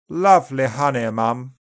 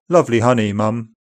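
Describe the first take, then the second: First: It is read in upper RP, vowels more open. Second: It is read in General British, vowels less open. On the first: "Upper RP is more open and back" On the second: "then in GB"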